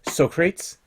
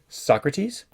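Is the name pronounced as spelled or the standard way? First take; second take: as spelled; standard. First: The name is sounded out as it is spelled. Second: The name has its usual spoken pronunciation.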